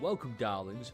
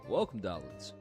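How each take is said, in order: First: It is said in a plain, neutral way. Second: It is said in a slow, seductive way. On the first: "rather than being like" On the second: "I can't not say it in a seductive way"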